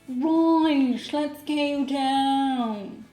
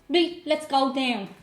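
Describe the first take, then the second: First: It has a posh Dublin accent with long vowels. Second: It has a North Dublin accent with clipped vowels.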